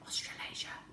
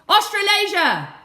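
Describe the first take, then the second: First: It is whispered very quietly. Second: It is shouted very loudly. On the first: "Now I want you to whisper it" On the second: "Now I want you to shout it really loud"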